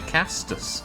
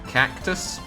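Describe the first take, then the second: First: The middle C sounds like an S. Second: The middle C sounds like a K. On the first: "you mean a castus?" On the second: "an isolated C in the middle of a word is pronounced like a K"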